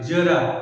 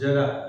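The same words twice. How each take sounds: First: The word begins with a z sound. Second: The word begins with a j sound. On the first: A little. "उच्चारण के रूप में लिखो जेड ए आर ए" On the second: Old age. "दूसरे जरा जो सामान्य है"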